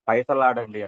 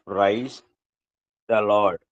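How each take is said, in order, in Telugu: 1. పదాలు కలిసిపోయి ఒకే తెలుగు ధ్వని గల పదంలా వినిపిస్తాయి. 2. ప్రతి పదం ఇంగ్లీష్ రూపంలో స్పష్టంగా పలకబడుతుంది. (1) "కొంతమంది పైసలాడండి అంటారు" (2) "ప్రైజ్ ద లార్డ్ అనే మాట"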